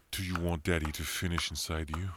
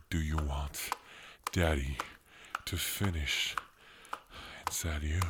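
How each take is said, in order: First: Said in the usual way. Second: Each phrase broken apart and pressed, Daddy hit hard; insistent repeat. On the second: Acted. Dominant lover insisting she answer, phrase by phrase. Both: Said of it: "I said".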